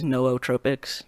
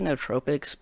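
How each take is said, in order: First: Both O's are pronounced as separate vowels. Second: The two O's are merged into one vowel. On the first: "the pr correct pronunciation is nootropics. Like you gotta like it's pr pronounced both O's" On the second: "I just say nootropics"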